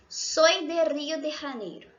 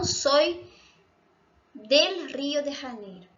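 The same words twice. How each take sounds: First: Said in the usual way. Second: "del" marcado, algo más fuerte; wrong form stressed. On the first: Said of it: "Por que que em espanhol a gente diz". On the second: Shown as a demonstration. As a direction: subraya "del" como el error. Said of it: "e não". (forma incorrecta con énfasis en "del")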